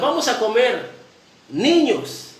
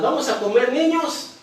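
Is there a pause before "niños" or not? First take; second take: pause; no pause. First: There is a pause before niños. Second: It runs on with no pause before niños.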